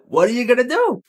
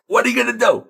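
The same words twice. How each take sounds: First: Mock shrug again. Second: Mock shrug. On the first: Joking shrug repeated. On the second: Joking shrug.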